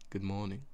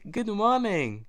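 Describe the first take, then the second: First: It sounds flat and sad. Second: It sounds cheerful and upbeat.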